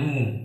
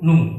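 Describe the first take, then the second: First: The vowel is held long. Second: The vowel is said short.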